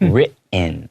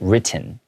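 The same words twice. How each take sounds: First: The middle T sound is swallowed. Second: The middle T sound is clearly pronounced. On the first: "we kind of swallow that T sound" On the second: "a lot of people can pronounce it written"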